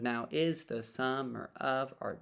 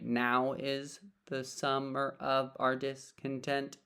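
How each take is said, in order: First: The stress falls on is. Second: The stress falls on now.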